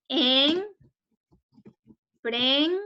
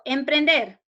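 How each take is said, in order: First: En, pren- drawn out with long pauses; syllable by syllable. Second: Said in the usual way. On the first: Shown as a demonstration. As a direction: split En, pren- into separate held syllables. (En, pren- separado en sílabas, con pausas largas) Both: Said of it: "Separemos en sílabas".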